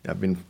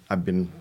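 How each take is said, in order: Both takes have the same delivery.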